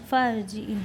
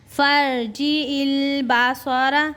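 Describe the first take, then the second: First: Said in the usual way. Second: Slow, high chant; Quran recitation. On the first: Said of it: "plain spoken check". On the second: Shown as a demonstration. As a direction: draw out फर्जी इल Basara. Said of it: "Quran recitation demo".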